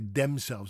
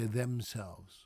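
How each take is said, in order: First: The first sound is a hard d-like stop. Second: The first sound is a soft 'th'. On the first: The speaker calls it wrong. "I don't say themselves anymore" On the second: The speaker calls it right. "I say themselves"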